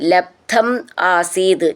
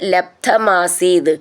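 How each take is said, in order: First: The two words are said separately. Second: The two words are run together as one.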